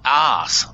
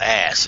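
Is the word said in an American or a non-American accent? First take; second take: non-American; American. First: The word is said in a non-American accent. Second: The word is said in an American accent.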